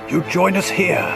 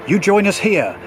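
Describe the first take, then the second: No difference in how they are said.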